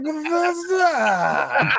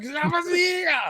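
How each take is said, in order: First: Stretched high, slow, crying mock yell; mock wailing shout. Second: High dramatic yell like a dubbed Japanese movie; Japanese movie style. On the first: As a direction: wail the name in over-the-top joy. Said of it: "it's like". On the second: Retold or imitated. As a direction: shout the name like a film hero. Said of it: "like a Japanese movie".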